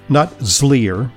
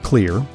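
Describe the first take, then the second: First: The word begins with a Z sound. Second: The word begins with a K sound. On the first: The speaker calls it wrong. "not zlear" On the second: The speaker calls it right. "but pronounced clear"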